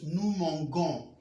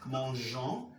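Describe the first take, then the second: First: Mangons with a hard G as in "go". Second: Mangeons with a soft French "zh" G. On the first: Teacher showing the misspelt form's sound, hard G. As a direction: say nous mangons with "g", never "zh". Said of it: "we are going to pronounce it". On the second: Teacher showing the correct nous form, soft G. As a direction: say mangeons with G as in "genre". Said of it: "remain J". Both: Shown as a demonstration.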